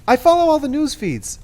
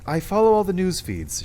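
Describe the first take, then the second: First: It is said in a high-pitched voice. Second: It is said in a lower, plainer voice. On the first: It sounds like yet another character. "Cress would be high-pitched" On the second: It sounds like a different, older character. "It's sounding a bit too Cinder"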